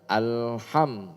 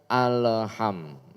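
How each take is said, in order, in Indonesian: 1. L diucapkan halus tanpa memantul. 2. L mendapat lepasan memantul tambahan. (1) "Yang benar alham" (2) "bukan alham"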